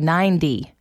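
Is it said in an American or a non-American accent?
American. It is said in an American accent.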